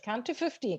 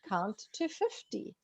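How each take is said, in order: First: The phrase is spoken at a fast pace. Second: The phrase is spoken at a slow pace. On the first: The speaker calls it wrong. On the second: The speaker calls it right.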